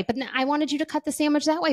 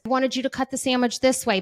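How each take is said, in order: First: Faster, higher whine, punching "that" in "that way"; a child flip-flopping in a meltdown, leaning on "that"; stress on THAT. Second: Put-on whiny child's demand, leaning on "this" with a falling tune; a kid fussing that the sandwich should have been cut "this" way; stress on THIS. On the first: Retold or imitated. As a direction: rush it and hit "that" hard, like a kid changing her mind. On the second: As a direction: insist on "this way", pitched higher and louder. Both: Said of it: "A meltdown is".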